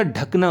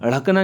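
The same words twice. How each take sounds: First: ढकना starting with a stopped retroflex dh; ढकना with undotted ढ sound; correct hard dh. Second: ढकना starting with a flapped rh; ढकना with dotted ढ़ sound; wrong flapped start. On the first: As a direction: say ढकना as dhak-na. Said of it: "होता है". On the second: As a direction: say ढकना as rhak-na, tongue flicked. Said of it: "नहीं होता". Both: Shown as a demonstration.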